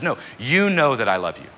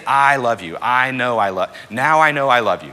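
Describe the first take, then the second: First: First "you" lifted and leaned on; stress on you. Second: "I" punched loud and high each time; stress on I. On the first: What Peter really says to Jesus, stress on the first "you". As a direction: correct it, putting the weight on the first "you". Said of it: "He says". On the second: What Peter doesn't say to Jesus, loud stress on "I". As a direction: hammer every "I", louder, as the wrong claim. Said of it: "He doesn't say". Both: Acted.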